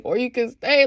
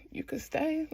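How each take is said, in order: First: Said in the usual way. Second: Soft, hushed mock invitation; tentative offer. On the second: Ilya asking Shane to stay, tentative. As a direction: imitate a shy, quiet offer. Hesitant invitation acted out, then repeated.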